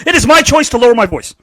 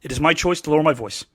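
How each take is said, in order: First: Said in the usual way. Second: Hushed, lowered delivery. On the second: Shown as a demonstration. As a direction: drop it down soft and low.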